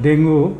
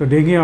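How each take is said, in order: First: The word ends with an 'oo' vowel. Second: The word ends with an 'ee' vowel. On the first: The speaker calls it wrong. "প্রচলিতভাবে যেভাবে আমরা বলি" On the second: The speaker calls it right. "সঠিক উচ্চারণ হলো"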